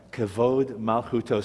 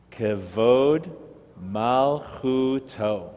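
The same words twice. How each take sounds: First: Said in the usual way. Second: Kavod then malchuto, drawn out very slowly; teacher reads slowly so the class can follow; slow model reading. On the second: Shown as a demonstration. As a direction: stretch every syllable of Kavod malchuto for the learners. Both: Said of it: "See if you can read the Hebrew".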